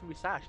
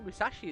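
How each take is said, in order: First: The middle vowel is dropped. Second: The middle vowel is fully sounded. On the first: The speaker calls it right. "They don't pronounce the I" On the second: The speaker calls it wrong. "I always say Musashi as well"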